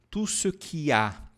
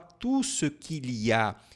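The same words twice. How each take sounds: First: The L sound in qu'il is dropped. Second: The L sound in qu'il is pronounced. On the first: This is the natural, everyday way. "Ela fala de uma maneira mais natural. Ela corta esse L" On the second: This is the formal way. "ela não fala tout ce qu'il y a"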